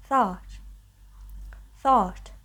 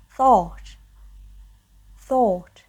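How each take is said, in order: First: American "thought" with a more open vowel; American English. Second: British "thought" with a closed, rounded vowel; British English. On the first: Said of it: "And in American English, it is". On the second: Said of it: "In British English, it's pronounced as". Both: Shown as a demonstration.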